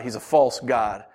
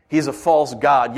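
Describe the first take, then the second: First: Said in the usual way. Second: "false" hit louder; stress on false. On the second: Shown as a demonstration. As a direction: repeat it with a firm, louder "false".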